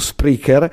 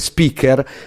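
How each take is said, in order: First: There is an r sound after the p. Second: There is no r sound after the p. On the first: The speaker calls it right. "però c'è dentro un R in più" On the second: The speaker calls it wrong. "tutte le volte sbaglio a pronunciarlo, mi viene a dire Speaker"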